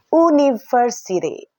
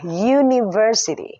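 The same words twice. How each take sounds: First: It begins with a plain vowel sound. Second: It begins with a consonant y sound. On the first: The speaker calls it wrong. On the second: The speaker calls it right.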